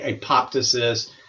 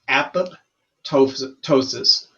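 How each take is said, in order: First: The word is run together as one unit. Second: The word is said as two parts, apop-ptosis. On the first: The speaker calls it wrong. "People mispronounce that all the time" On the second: The speaker calls it right. "pronounce it like two words, apop and then ptosis"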